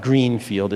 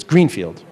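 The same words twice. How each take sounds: First: "Greenfield" drawn out as Green, Field; Greenfield as two words. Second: "Greenfield" run together as a single word; Greenfield as one word. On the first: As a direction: split "Greenfield" into two slow, separate words. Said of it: "it's all one, though. It's not Greenfield". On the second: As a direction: say "Greenfield" quicker, with no gap between Green and field. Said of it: "it's all one, though". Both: Shown as a demonstration.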